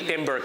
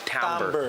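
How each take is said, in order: First: The word sounds like the English word timber. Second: The word sounds different from the word timber. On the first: The speaker calls it wrong. "Yung pagkasabi nun ay hindi timber" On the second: The speaker calls it right. "it's actually said timbre"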